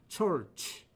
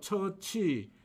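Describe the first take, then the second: First: It ends on a bare ch sound. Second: It ends with an added ee vowel. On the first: The speaker calls it right. "church가 맞는 발음입니다" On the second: The speaker calls it wrong. "치읓 다음에 이 또는 위 모음을 넣어서 처치"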